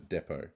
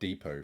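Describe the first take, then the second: First: It uses a non-North American pronunciation. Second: It uses a North American pronunciation.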